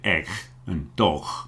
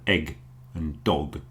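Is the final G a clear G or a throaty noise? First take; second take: throaty noise; clear G. First: The final G is a throaty, rasping noise. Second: The final G is a clear G sound. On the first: The speaker calls it wrong. "People often do a, a throat sound, this sort of noise" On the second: The speaker calls it right. "instead of"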